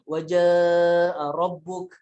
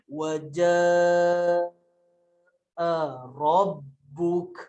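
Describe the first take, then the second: First: It is recited fast. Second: It is recited very slowly.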